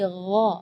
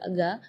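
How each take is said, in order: First: The consonant is a rough gh from the throat. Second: The consonant is a hard g from the tongue. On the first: The speaker calls it right. "dari uh, bagian tenggorokan" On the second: The speaker calls it wrong. "makhrajnya dari lidah"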